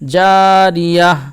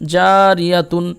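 First: The word ends in a soft h sound. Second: The word ends with a full -tun ending. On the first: The reciter stops on this word. "এটা সাকিন হয়ে যাবে, দিয়ে হায়ের মতো উচ্চারণ হবে" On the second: The reciter continues without stopping. "তা দুবেস তুন ইয়াতুন"

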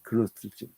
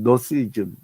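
First: The word starts with a sounded g before n. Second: The word starts with n; the g is silent. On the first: "원래는 헬라 발음으로는 그노스이즘" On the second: "영어식 발음은 너스이즘"

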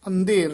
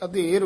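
First: The first vowel is followed by a nasal sound. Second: The first vowel is plain, without a nasal sound. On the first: The speaker calls it wrong. "ਅੰਧੇਰ ਨਹੀਂ ਕਹਿਣਾ" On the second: The speaker calls it right. "ਅਧੇਰ ਉਚਾਰਨ ਕਰਨਾ"

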